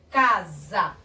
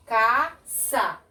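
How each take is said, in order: First: "casa" in two syllables, voiced z; som de Z. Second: "caça" in two syllables, hissed s; som de S. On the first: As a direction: split "casa" as ca, za. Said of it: "Pra ficar casa". ("casa" silabado com som de Z) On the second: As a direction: split "caça" as ca, ssa. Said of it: "não pode". ("caça" silabado com som de S) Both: Shown as a demonstration.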